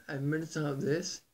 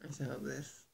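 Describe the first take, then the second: First: Fuller, pushed chest voice; deepened voice. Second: Soft, weak ill voice. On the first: Vlogger showing viewers his deepened proper voice, pushed and full. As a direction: deepen and project it. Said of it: "Deepen my voice". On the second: Vlogger showing how his illness makes him sound, soft and weak. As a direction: let the voice fade as if sapped by illness. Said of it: "I'm gonna sound like this". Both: Shown as a demonstration.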